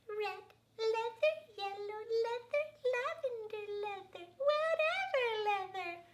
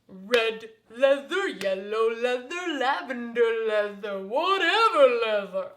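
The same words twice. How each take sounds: First: It is said in a high baby voice. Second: It is said in a big booming voice.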